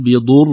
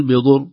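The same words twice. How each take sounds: First: "بضر" with a held, doubled ra. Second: "بضر" without doubling the ra; "بضر" cut short, ra not doubled; wrong, single ra. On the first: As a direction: hold the ra of "بضر" for two beats. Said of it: "لا، نقول". (إظهار تشديد الراء) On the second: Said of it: "لا نقول". (خطأ: عدم إظهار الشدة) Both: Shown as a demonstration.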